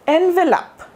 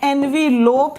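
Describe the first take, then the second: First: The last syllable sounds short, like 'lup'. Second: The last syllable sounds like 'lope'. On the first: The speaker calls it right. "Last वाले ई का sound जो है नहीं है" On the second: The speaker calls it wrong. "एल ओ पी ई होगा? नहीं"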